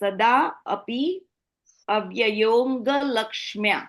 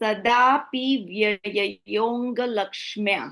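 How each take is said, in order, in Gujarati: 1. શબ્દો છૂટા પાડીને અલગ અલગ બોલાય છે. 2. શબ્દો એકસાથે જોડીને એક ધારામાં બોલાય છે.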